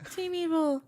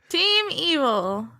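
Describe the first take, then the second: First: It is said flatly, without conviction. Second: It is said forcefully, with real conviction.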